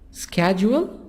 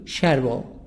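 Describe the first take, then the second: First: It is said with an American accent. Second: It is said with a British accent.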